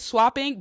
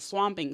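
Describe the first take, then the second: First: The middle consonant is a P sound. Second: The middle consonant is an M sound. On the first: The speaker calls it right. "I meant to say swapping" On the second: The speaker calls it wrong. "I kept saying swamping"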